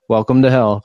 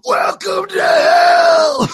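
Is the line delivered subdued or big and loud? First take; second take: subdued; big. First: It is said in a quiet, subdued way. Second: It is said in a big, loud way.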